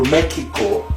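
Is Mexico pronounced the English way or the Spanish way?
Spanish. Mexico is pronounced with a Spanish pronunciation.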